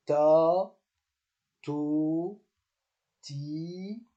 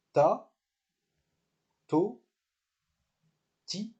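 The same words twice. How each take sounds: First: "Ta, to, ti" each stretched long, with pauses between; long, sustained syllables in "Ta, to, ti"; prolonged vowels. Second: "Ta, to, ti" each short, with pauses between; brief vowels in "Ta, to, ti"; short syllables. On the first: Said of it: "Donc c'est prolongé". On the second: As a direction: recite "Ta, to, ti" as separate short syllables. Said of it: "Quand il y a un seul accent". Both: Shown as a demonstration.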